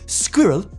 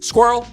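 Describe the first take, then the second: First: The word is said as two syllables. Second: The word is said as one syllable.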